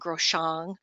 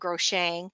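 First: The last syllable is said like 'shong'. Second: The last syllable is said like 'shang'. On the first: The speaker calls it right. "but it's called a Groshong" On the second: The speaker calls it wrong. "I used to call it a Groshang"

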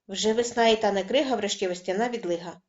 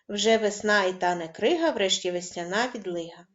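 First: It is spoken very fast in one breath. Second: It is spoken at a fast pace. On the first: "на видосі говоримо дуже швидко" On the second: "І ще швидше"

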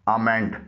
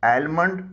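First: The 'l' sound is silent. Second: The 'l' sound is pronounced. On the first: The speaker calls it right. "इसमें एल silent है" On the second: The speaker calls it wrong. "इसे एलमंड न बोलिएगा"

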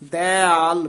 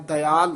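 First: The first vowel is drawn out long. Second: The first vowel is kept short. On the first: The speaker calls it right. "ਦੀਰਘ ਉਚਾਰਨ ਕਰਕੇ ਦਇਆਲ ਬੋਲਣਾ" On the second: The speaker calls it wrong. "ਦਇਆਲ ਨਹੀਂ ਕਹਿਣਾ"

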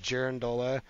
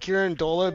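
First: The word begins with a J sound. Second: The word begins with a hard G sound. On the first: "like with a J" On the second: "I usually call it a girandola"

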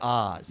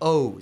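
First: The name rhymes with 'does', like the land. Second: The name sounds like the word 'owes'. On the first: This is how the spelling suggests it is read. The speaker calls it wrong. "It looks like Oz" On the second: This is the original pronunciation of the name. The speaker calls it right. "Sounds like somebody owes you money"

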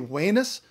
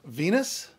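First: It is pronounced the classical Latin way. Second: It is pronounced the usual English way. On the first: "if you want to stick with the classical roots" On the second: "instead of"

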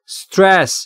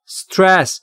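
The two takes are said the same way.

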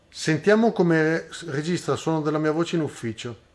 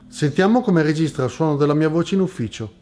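First: Recorded at the lowest gain, minus five decibels. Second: Recorded at the highest gain, plus two decibels. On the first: "impostando il guadagno del preamplificatore della camera a meno cinque decibel" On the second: "impostando il guadagno del preamplificatore della camera a più due decibel"

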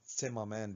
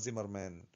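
First: The name begins with a ts sound. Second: The name begins with a z sound. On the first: This is the original German pronunciation. "المفروض ننطقها تسيمامان بالألماني" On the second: This is the commonly used pronunciation. "النطق المعروف والمشهور هو زيمرمان"

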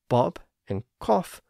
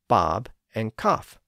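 First: The vowel is said with rounded lips, like 'aw'. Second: The vowel is said with unrounded lips, like 'ah'. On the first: This is the older pronunciation. "the slight rounding of the lips when making the short O sound" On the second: This is the newer pronunciation. "So if people stopped doing that, it essentially became the short A sound"

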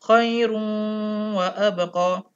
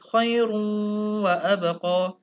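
First: The n merges into a nasalized w. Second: The n merges into a nasalized w.

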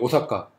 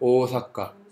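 First: The first vowel is clipped short. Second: The first vowel is drawn out long. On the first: This is how Korean speakers say it. "우리는 어떻게 해요? 오사카 이러죠" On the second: This is how Japanese speakers say it. "일본어 오는 한국어 오보다 짧습니다. 그런데 두 개를 넣으면 한국어 오보다 더 길어집니다"

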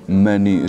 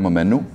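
First: The word is pronounced the standard way. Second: The word is pronounced in a deliberately altered way. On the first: The speaker calls it right. "místo menu" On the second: The speaker calls it wrong. "říkám menu ... vyslovuju věci záměrně špatně"

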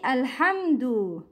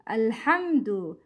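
First: The word begins with a vowel before the l. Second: The word begins with a vowel before the l.

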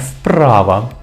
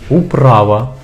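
First: The в sounds like a voiceless f. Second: The в sounds like a short w glide. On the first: The speaker calls it wrong. "Не" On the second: The speaker calls it right. "вимовляється як нескладовий «в»"

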